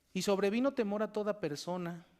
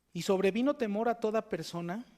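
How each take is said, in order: Both takes have the same delivery.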